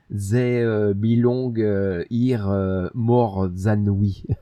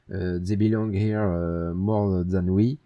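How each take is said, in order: First: It is said with a strong French accent. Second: It is said without a French accent.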